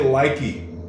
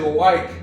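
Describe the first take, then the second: First: It ends with an extra 'ee' vowel. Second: It ends on the K with no vowel. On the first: The speaker calls it wrong. "you don't say likey" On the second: The speaker calls it right. "You say like"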